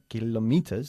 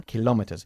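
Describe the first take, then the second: First: "kilometers" with the first syllable stressed, KI-lometers; wrong stress. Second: "Kilómetros" with the stress on the second syllable, ki-LO-metros. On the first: Teacher showing the student's wrong stress. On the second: Teacher modeling the correct stress. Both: Shown as a demonstration. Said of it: "Enfatizamos la segunda sílaba".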